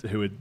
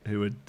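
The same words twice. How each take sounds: The two takes are said the same way.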